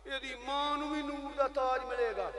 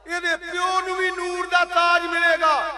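First: Said in the usual way. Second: Loud, high, slow proclamation; full-force preaching shout, words stretched; exultant shout. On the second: Real, not acted. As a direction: cry it out to the congregation. Repeat raised to a shout, father's crown.

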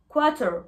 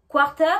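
First: QUARTER said "kwah-tuh", no R; silent R. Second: QUARTER with a sounded R, "kwar-ter"; R pronounced, as the wrong way. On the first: English teacher contrasting two pronunciations, QUARTER with silent R. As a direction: leave the R out of QUARTER. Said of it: "on ne prononce pas le R de quarter". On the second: English teacher contrasting two pronunciations, QUARTER with R sounded. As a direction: hit the R in QUARTER, loud. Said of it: "Entendez bien la différence". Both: Shown as a demonstration.

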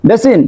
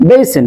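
First: বেসিন as "be-sin", pure e; wrong pronunciation. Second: বেসিন as "BEY-sen", higher pitched; correct pronunciation. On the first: Teacher offers it to be rejected, বেসিন mispronounced "besin". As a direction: say "besin" with no glide. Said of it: "No, no, not basin". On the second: Teacher says what we will say, correct "beysen" for বেসিন. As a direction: glide the first vowel of বেসিন. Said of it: "এটাকে বলবো". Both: Shown as a demonstration.

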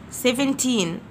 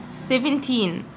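The two takes are said the same way.

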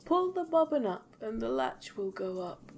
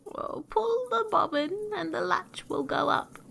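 First: Wolf posing as granny, higher and gentle; softened wolf voice. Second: High, drawn granny call; old granny. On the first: Wolf calls to the girl, softening his voice, higher. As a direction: soften it into a fake granny call. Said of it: "softening his voice as much as he could". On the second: Granny calls to her visitor from bed, high-pitched. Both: A narrator's reading.

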